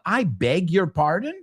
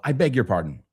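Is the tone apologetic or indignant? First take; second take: indignant; apologetic. First: The tone is indignant and confrontational. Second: The tone is sincere and apologetic. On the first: The speaker is offended by the listener. "Excuse me, motherfucker, would be the translation there" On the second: The speaker apologizes for interrupting. "So one is sincere, like I'm I'm sorry, excuse me"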